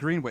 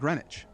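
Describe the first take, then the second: First: The second syllable is said with a W sound. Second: The second syllable is said without a W sound. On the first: This is how it is said in Massachusetts. The speaker calls it right. "it seems to be with a with a W in there" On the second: This is how it is said elsewhere, such as Rhode Island. The speaker calls it wrong. "It's not Greenwich"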